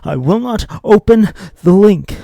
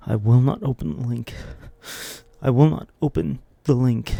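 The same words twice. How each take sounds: First: High frantic yell, leaning on open; screamed vow. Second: Loud firm vow, stressing will. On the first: Tempted viewer losing control, high frantic scream. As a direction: break into a desperate scream. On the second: Tempted viewer swearing off the link, loud firm vow. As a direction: swear it to yourself. Resolving not to click. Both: Acted.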